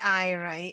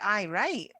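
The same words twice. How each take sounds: First: It sounds sarcastic and dismissive. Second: It sounds sincere and agreeable. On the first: The speaker thinks it will never happen. "it's like there's no way this is happening" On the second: The speaker agrees. "that's positive"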